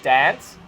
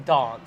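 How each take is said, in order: First: It has a typical broad Australian vowel. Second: It has a British-tinged Adelaide vowel.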